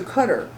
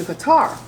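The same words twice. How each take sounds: First: "Qatar" said CUT-er; first-syllable stress on "Qatar"; Arabic-like Qatar. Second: "Qatar" said kuh-TAR; final-syllable stress on "Qatar"; familiar Qatar. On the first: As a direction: say "Qatar" like "cutter". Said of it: "the word is pronounced". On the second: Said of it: "stress that tar". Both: Shown as a demonstration.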